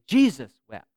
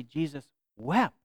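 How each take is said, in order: First: "Jesus" punched, "wept" left light; stress on Jesus. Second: "Jesus" light, "wept" stressed and slow with a rise; slow down and lift on "wept". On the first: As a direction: lean hard on the word "Jesus". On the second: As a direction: give the weight to "wept", drawn out. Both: Shown as a demonstration. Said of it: "accent a different word".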